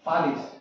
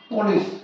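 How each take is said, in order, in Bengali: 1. প্রথম স্বরধ্বনিটি ছোট এবং খোলা। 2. প্রথম স্বরধ্বনিটি গোলাকার, 'oh'-এর মতো। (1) "পালিশ উচ্চারণ করবো আমরা পালিশ" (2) "পুলিশ যখন লিখবো তখন উচ্চারণ করবো"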